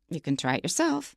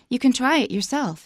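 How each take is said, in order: First: The voice sounds pointed and defiant. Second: The voice sounds warm and encouraging. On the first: The speaker expects trying it will prove the speaker right. "In the situation I described with Wes, I go" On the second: The speaker is kindly inviting the listener to give it a go. "I'm just being very nice and encouraging and polite"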